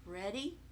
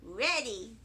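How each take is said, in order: First: Soft, low, rising "Ready?" asked gently; "Ready?" with a questioning rise at the end; quiet question. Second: "Ready," said flat and steady as a reply; firm answer. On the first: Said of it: "he said". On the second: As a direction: answer "Ready," with a level, sure tune. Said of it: "I said". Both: Acted.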